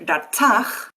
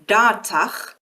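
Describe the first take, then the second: First: The stress is on the second syllable. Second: The stress is on the first syllable. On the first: The first part is a prefix on the root verb. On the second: The first part is the root verb with a suffix.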